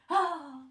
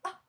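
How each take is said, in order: First: The 'ah' sounds dramatic and pained. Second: The 'ah' sounds light and amused. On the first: The speaker calls it right. "C'est dramatique, tu vois. C'est dans la souffrance" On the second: The speaker calls it wrong. "c'est pas ah"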